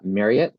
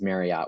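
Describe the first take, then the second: First: The name rhymes with the word chariot. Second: The name does not rhyme with chariot. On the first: The speaker calls it right. "it's pronounced uh, Marriott, like chariot" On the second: The speaker calls it wrong. "which I know a lot of people uh, pronounce it that way"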